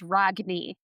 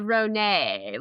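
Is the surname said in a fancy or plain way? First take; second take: plain; fancy. First: The surname is said in a plain way. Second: The surname is said in a fancy way. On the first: The speaker calls it right. "the correct pronunciation is" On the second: The speaker calls it wrong. "if we want to be fancy, we could do"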